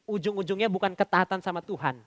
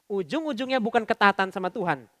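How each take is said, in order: Both takes have the same delivery.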